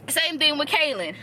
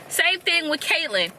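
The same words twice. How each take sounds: First: "Kaylin" said KAY-lin, no t sound; the slip, "Kaylin" with no t before the l; wrong name Kaylin. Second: "Caitlyn" said KAYT-lin, clear t before the l; corrected name Caitlyn. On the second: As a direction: fix it, "Caitlyn" with a crisp t. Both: Shown as a demonstration.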